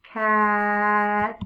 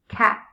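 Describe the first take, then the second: First: "Cat" with a long held vowel and quick t; sounded out. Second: Said in the usual way. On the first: Shown as a demonstration. Teacher sounds out a word for new readers, "Cat" drawn out. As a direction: blend "Cat" slowly, stretching the middle. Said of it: "Sound it out". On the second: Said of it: "Say it fast".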